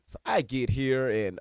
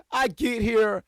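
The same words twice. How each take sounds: First: Said in the usual way. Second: Laughing high and slow through the words; laughing restart. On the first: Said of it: "restart after telling Randy off". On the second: Real, not acted. Restarting the story to viewers, laughing it out. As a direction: break up laughing as you start over. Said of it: "laughs, restarts the line".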